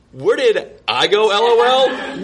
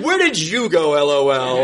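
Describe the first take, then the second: First: "Where did I go" with I leaned on, higher; echoing her text with stress on "I". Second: Turning her question back on her; stress on you. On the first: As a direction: throw her question back, hitting "I". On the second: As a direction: flip it around, point at "you". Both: Pretend. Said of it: "mirrors her text back".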